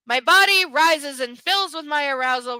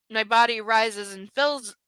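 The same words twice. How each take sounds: First: Louder, overblown romance-novel read; breathless dramatic. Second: Said in the usual way. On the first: Shown as a demonstration. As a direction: ham up the passion. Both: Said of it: "repeats line more dramatically".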